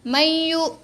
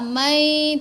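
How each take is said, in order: First: It is read fast with no nasal hum. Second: The nasal hum is held for two beats. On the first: The speaker calls it wrong. "kalau baca laju susah nak jadikan dia dengung tu" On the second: The speaker calls it right. "Nun masuk ya, mai, tapi dengung dua harakat"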